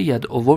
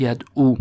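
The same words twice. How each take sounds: First: ید او said "yad-o-vo", final vav voiced with damma; full uncontracted ending. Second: ید او said "yad-oo", ending on a long u; contracted long-u ending. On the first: Teacher showing the form before the rule, full ending "yad'ovo". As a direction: sound the v and closing o in ید او. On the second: Teacher showing the form after the rule, contracted "yad'u". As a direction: drop the v, close ید او on oo. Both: Shown as a demonstration.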